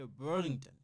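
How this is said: It is said with an English accent.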